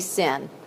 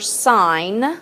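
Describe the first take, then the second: First: The vowel is short, like 'sin'. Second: The vowel is long, like 'sign'. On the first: The speaker calls it wrong. "you do not say sin" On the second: The speaker calls it right. "you know that stands for sine"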